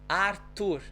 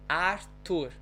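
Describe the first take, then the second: Both takes have the same delivery.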